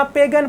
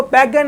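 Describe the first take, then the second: First: पेगन with a long "e" as in "pay"; पेगन said "paygan", the right way; correct pronunciation. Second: पैगन with an open "ai" vowel; पैगन said "paigan", the wrong way; wrong pronunciation. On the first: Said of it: "पेगन पढ़ना है". (पेगन का सही उच्चारण, लंबे "ए" के साथ) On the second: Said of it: "इसको पैगन नहीं पढ़ना". (पैगन का गलत उच्चारण, "ऐ" के साथ) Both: Shown as a demonstration.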